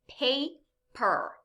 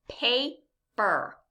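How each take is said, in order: No difference in how they are said.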